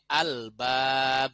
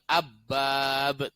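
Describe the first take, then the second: First: The L is clearly pronounced before the B. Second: The L merges into a doubled B sound. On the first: The speaker calls it right. "tapi al-bab" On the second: The speaker calls it wrong. "bukan abbab"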